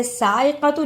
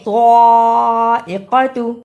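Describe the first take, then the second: First: साइक़तु quickly, with a light thin s; wrong thin seen. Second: साइक़तु loud and slow, thick dark s; heavy saad. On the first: Teacher showing the mistake, quick thin-s साइक़तु. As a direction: say साइक़तु fast with an ordinary s. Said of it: "सीन की आवाज नहीं आनी चाहिए". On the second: Teacher correcting, loud slow heavy-s साइक़तु. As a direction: open साइक़तु with a full-mouthed emphatic s, held long. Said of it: "स्वाद को मोटा पढ़ना है". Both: Shown as a demonstration.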